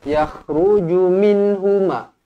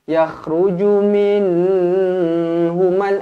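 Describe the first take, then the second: First: The n sound is short and clear. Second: The n sound is held with a nasal hum. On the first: The speaker calls it right. "Jelas dan terang" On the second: The speaker calls it wrong. "Itu dengung namanya"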